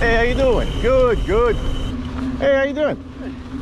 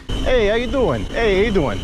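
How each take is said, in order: First: Italian-American greeting pitched up high, last one drawn out slowly; hammy New York Italian hello to passing riders; Mister Bonelli greeting. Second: Lightly voiced Italian-American hello, pitched up; a hint of a cheerful New York Italian greeter; Mister Bonelli greeting. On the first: Acted. Biker greets oncoming riders as Mister Bonelli, Italian-American and hammy. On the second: Mountain biker channeling Mister Bonelli greets riders, lightly Italian-American. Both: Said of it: "Like the ghost of Mister Bonelli is".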